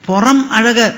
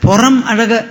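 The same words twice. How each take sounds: The two takes are said the same way.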